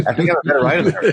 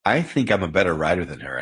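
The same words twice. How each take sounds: First: High, loud, laughing through it; cheeky laughing confession; laughing repeat. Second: Said in the usual way. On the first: Real, not acted. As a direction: say it again giggling. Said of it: "It's good you can own that". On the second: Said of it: "I hope she doesn't get mad at me".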